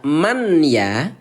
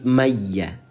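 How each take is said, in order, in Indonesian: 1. Bunyi n dibaca sebelum y. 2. Bunyi n menyatu sepenuhnya ke dalam y. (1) "yang tadi dibaca man ya" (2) "sekarang diubah menjadi maya"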